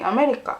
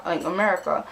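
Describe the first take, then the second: First: America pitched higher with a rising end; questioning answer. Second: Said in the usual way. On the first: Retold or imitated. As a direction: lift America up like a tentative question. First answer, then repeated normally.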